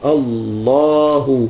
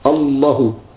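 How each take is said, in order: First: The vowel after the L sound is long. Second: The vowel after the L sound is short. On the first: The speaker calls it right. "وهي الألف في اللام" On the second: The speaker calls it wrong. "ما أتى بالألف، قال ما صح هذا التكبير"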